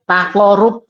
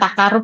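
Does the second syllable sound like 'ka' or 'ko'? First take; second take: ko; ka. First: The second syllable sounds like a deep 'ko'. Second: The second syllable sounds like a light 'ka'. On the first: The speaker calls it right. "takorub dari kata koribun" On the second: The speaker calls it wrong. "kalau tadi Bu ini membacanya takarub bukan takarub ya"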